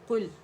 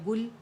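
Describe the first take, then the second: First: The word begins with a deep throat q sound. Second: The word begins with a plain g sound. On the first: The speaker calls it right. "अरबी हर्फ की जगह हम गैर अरबी हर्फ जैसे पढ़ते हैं, जैसे कुल है" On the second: The speaker calls it wrong. "तो मुंह से हमारे निकल गया गुल"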